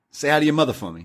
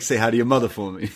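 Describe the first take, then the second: First: A light hint of a tough-guy Wahlberg, the word hi lifted; Mark Wahlberg line. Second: Quicker, offhand take with a lean on mother; SNL Wahlberg impression. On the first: Quoting the classic Mark Wahlberg line to his cohost, lightly voiced. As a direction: toss off the famous line with a slight swagger. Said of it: "the classic Mark Wahlberg line". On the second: Recalling the SNL sketch for his cohost, a quick mild Wahlberg voice. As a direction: rattle it off like the comedy sketch. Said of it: "Mark Wahlberg talks to animals".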